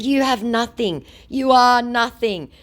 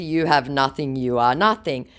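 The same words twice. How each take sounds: First: High, deliberate put-down; mock scornful insult. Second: Said in the usual way. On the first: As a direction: act out a cutting reply. Own insult in text quarrel.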